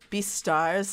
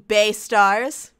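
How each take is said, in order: First: The first syllable sounds like 'bee'. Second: The first syllable sounds like 'bay'. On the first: The speaker calls it right. "I think is how you actually pronounce it" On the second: The speaker calls it wrong. "though there's a lot of bays in this manga"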